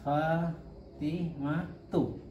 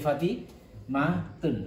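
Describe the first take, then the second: First: The name ends on a plain u vowel. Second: The name ends with an added n sound. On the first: The speaker calls it right. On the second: The speaker calls it wrong.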